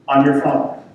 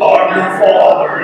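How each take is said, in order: First: It is said in a normal voice. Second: It is said in a deep Darth Vader voice.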